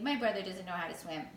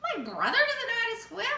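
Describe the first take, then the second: First: It is said as a plain statement. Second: It is said as a surprised question.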